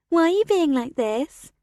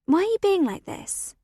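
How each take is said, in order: First: Mocking sing-song, rising end. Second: Said in the usual way. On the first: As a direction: sing it back to mock her. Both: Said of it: "Olivia repeats in a sing-song voice".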